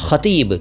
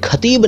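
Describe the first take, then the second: First: It starts with a throaty fricative kh sound. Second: It starts with an aspirated k sound. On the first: The speaker calls it right. "ख के नीचे नुक्ता है" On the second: The speaker calls it wrong. "ये खतीब नहीं है"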